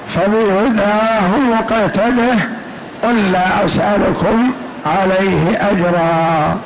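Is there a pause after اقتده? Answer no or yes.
no. It runs on without a pause after iqtadih.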